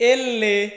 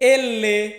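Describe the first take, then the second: First: The letter name is said as two syllables. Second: The letter name is said as two syllables.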